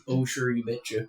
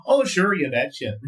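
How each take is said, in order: First: Put-on Minnesotan accent. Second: Bright sing-song Minnesotan, pitch up on Oh; Minnesotan accent. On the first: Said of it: "You never done a Minnesotan". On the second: Shown as a demonstration. Minnesotan accent on request, pitched up. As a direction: do the Minnesotan phrase on request, higher. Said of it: "it's the only phrase I can do".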